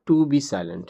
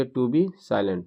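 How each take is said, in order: First: Said in the usual way. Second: Slow, word by word, stressing be; slow dictation. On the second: Shown as a demonstration. Teacher dictating the corrected phrase, slow and deliberate. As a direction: spell it out slowly for the class. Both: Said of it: "to से जोड़ दिएगा".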